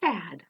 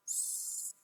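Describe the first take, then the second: First: Said in the usual way. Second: Sad drawn out sound by sound; slow segmented sad; stretched out slowly. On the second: Shown as a demonstration. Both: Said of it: "Let's say sad really slowly".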